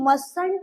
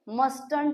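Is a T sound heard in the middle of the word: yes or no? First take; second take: no; yes. First: The middle T sound is left out. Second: The middle T sound is clearly pronounced. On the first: The speaker calls it right. "हम टी को कभी नहीं sound करते हैं" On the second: The speaker calls it wrong. "मस्टंट भी बोल लेते हैं"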